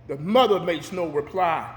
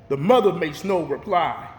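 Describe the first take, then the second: No difference in how they are said.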